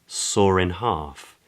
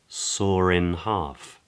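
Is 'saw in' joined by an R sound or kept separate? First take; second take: R-linked; R-linked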